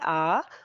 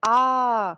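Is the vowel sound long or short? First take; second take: short; long. First: The vowel is said short, not drawn out. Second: The vowel is stretched out and held longer.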